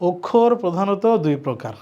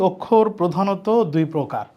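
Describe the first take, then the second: Both takes have the same delivery.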